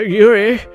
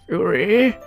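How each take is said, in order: First: It is said in a normal voice. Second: It is said in an old man voice.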